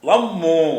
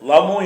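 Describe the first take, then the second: First: The middle consonant is doubled and pressed. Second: The middle consonant is short and single. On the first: "அப்படி அழுத்தி சொல்லுவோம்" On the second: "லமு என்று சொல்லுவோம்"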